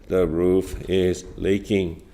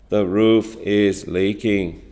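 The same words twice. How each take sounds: No difference in how they are said.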